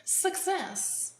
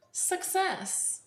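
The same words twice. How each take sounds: The two takes are said the same way.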